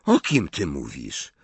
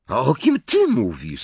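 First: Low, blank "O kim ty mówisz?"; low puzzled question. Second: "ty" punched in "A o kim ty mówisz?"; stress on TY. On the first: Confused boy asking his friend, low puzzled question. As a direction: ask it low, without pushing any word. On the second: Friend returning the question, stress on "ty". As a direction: turn the question back, leaning on "ty". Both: A narrator's reading.

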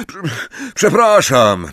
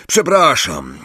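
First: Stammered apology. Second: Higher-pitched sorry; apology. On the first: Ron repeating himself to Angelina, stammering an apology. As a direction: break off after the first syllable, then restart. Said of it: "powtórzył Ron". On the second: Ron to Angelina after his mistake, apologetic. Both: A narrator's reading.

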